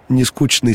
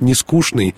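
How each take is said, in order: First: The middle consonant is pronounced as 'ch'. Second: The middle consonant is pronounced as 'sh'. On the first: This is the Petersburg way of saying it. "говорили «нескучный» с ЧН" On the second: This is the Moscow way of saying it. "мы, москвичи, будем говорить"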